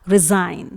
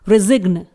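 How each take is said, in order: First: No g sound is heard before the n. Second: A hard g sound is heard before the n. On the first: The speaker calls it right. "Correctly pronounce किया जाएगा" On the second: The speaker calls it wrong. "ये wrong pronunciation है"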